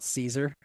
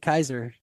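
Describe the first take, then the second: First: The word begins with an S sound. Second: The word begins with a K sound. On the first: The speaker calls it wrong. "they pronounce it wrong" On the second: The speaker calls it right. "it's supposed to be Kaiser"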